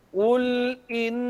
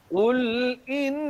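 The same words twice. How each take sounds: The two takes are said the same way.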